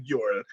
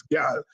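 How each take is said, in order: First: Put-on "girl" said the standard way, full r; plain "girl" with the r sounded; "girl" as outsiders say it. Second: Put-on "girl" said Caribbean-style as "gyal"; "girl" with a Guyanese "gyal" sound. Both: Shown as a demonstration. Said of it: "she'll be vexed with me if I say girl".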